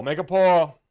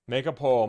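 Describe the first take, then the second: First: Higher, louder repeat; loud call. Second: Said in the usual way. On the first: Real, not acted. Streamer shouting the idea to the chat, higher and louder.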